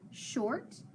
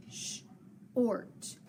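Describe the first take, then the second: First: Said in the usual way. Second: "sh-ort" split into soft SH, gap, then "ort"; "sh-ort" in separate phonics chunks; sounding out "sh-ort". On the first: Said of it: "So sh-ort". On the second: Shown as a demonstration. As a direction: break "sh-ort" in two for a learner. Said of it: "put that arc underneath to connect it".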